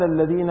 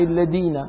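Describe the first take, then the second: First: الذين with a proper dh, "alladhina"; dotted dhal. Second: الذين with a hard d, "alladina"; undotted dal. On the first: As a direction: say الذين with tongue-tip dh. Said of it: "زال الذين المعجمة". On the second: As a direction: replace the dh of الذين with plain d. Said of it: "الذين بالمهملة". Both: Shown as a demonstration.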